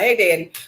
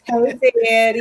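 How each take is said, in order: First: It is said short and plain. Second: It is said slowly and drawn out.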